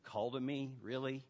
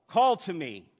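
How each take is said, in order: First: Understated skepticism, no emphasis on "Call"; skeptical listener. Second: Loud, commanding "Call" at the front; emphatic call. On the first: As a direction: query it quietly, unconvinced. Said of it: "This is sounding a little too emotional". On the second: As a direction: CALL punched loud, falling through "to me". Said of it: "keep emphasizing those words". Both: Acted.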